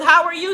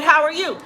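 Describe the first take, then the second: First: Higher, sugary greeting that means calm down; sweetly polite warning to cool it; mock-polite greeting signalling back off; pointed politeness. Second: Higher, sweet greeting with an edge; polite warning to cool it; mock-polite greeting to an irate vendor; pointed politeness. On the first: Shown as a demonstration. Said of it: "that means bring it down, bro". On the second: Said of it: "So I said".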